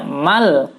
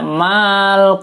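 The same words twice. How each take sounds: First: The vowel after m is kept short. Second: The vowel after m is drawn out long. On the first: The speaker calls it right. "tidak jadi dibaca panjang" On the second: The speaker calls it wrong. "Jangan dibaca"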